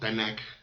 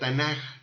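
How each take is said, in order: First: The word ends in a hard k sound. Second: The word ends in a soft, breathy j sound. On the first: The speaker calls it wrong. "no Tanakh" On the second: The speaker calls it right. "se pronuncia suave, como J, no como K"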